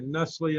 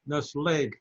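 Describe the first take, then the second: First: The name is pronounced the American way. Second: The name is pronounced the French way. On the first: This is how it is said in America. "in America, we say Nestle" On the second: This is how it is said in Switzerland. "If we were in Switzerland, where Nestle is headquartered, it would be Nestlé, because uh, it's a French word"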